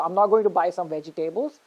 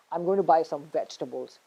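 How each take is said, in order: First: Vegetables as vegi-TAY-bles, rising at the end; stress on third syllable. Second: Vegetables as VEJ-tubbles; stress on first syllable. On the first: Teacher showing the wrong sentence first, vegetables as vegi-TAY-bles. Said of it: "It's not vegetables". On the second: Teacher showing the corrected sentence, vegetables as VEJ-tubbles. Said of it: "So it's vegetables". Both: Shown as a demonstration.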